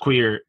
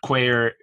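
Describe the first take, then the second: First: It is said with a standard, non-Irish pronunciation. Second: It is said with an Irish pronunciation. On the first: "not pronounced the same as queer" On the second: "In Ireland, queer"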